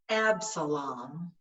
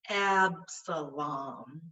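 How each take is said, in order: First: The name is said quickly and smoothly. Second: The name is said a little faster.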